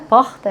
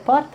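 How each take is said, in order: First: It is said in a Rio de Janeiro accent. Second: It is said in a São Paulo accent. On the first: The speaker calls it wrong. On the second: The speaker calls it right.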